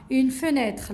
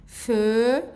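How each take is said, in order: First: Said in the usual way. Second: "Fenêtre" split into fe, nê, tre with long pauses; syllable by syllable. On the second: Shown as a demonstration. Teacher shows children how to read it, syllable by syllable. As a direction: draw out each syllable of "Fenêtre" separately. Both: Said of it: "comment on va prononcer ici".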